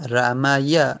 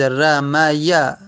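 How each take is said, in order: First: Said in the usual way. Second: رمیا said slowly and firmly, each syllable clear, falling at the end; careful model pronunciation. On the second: Shown as a demonstration. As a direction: lay out رمیا slowly for the students.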